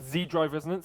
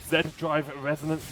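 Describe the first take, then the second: First: Z is said the American way, zee. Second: Z is said the British way, zed.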